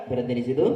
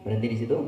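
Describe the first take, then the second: No difference in how they are said.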